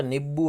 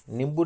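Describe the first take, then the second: First: नींबू with a nasal ī and no m, nību; सही उच्चारण नींबू; correct pronunciation. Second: नींबू with a full m, nimbu, as the mistake; the wrong way: नींबू with an m; गलत उच्चारण नींबू; wrong pronunciation. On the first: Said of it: "नींबू होता है". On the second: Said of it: "नींबू नहीं होता". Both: Shown as a demonstration.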